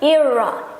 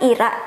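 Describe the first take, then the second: First: The r sound is soft and unrolled. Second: The r sound is rolled and trilled. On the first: This is how foreigners say the name. "suka bilang Ira" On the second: This is how the owner says the name. "nama saya kan Ira"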